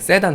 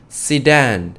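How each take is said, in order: First: The word is said with Korean pronunciation. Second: The word is said with English pronunciation. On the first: "그냥 세단 하시면 돼요" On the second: "이 세단 영어는요, sedan 정도예요"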